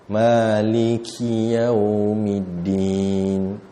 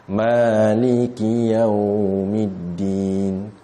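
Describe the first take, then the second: Both takes have the same delivery.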